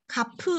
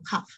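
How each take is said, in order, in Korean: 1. 이 단어는 강한 p 소리로 끝나요. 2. 이 단어는 부드러운 f 소리로 끝나요. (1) "카프 아니고" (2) "카프 이렇게 읽는 거죠"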